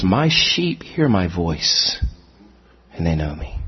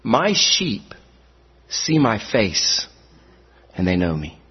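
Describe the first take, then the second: First: "hear my voice" said slowly, dropping low at the end; slow, weighty on "hear my voice"; correct quote. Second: "see my face" drawn out slowly; slow down on "see my face" as if correct; wrong quote. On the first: Preacher giving the correct verse, slow and weighty. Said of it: "or is the emphasis on the ears". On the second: Preacher quoting scripture wrong as a test, slow. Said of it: "I'm gonna quote you the scriptures incorrectly". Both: Shown as a demonstration.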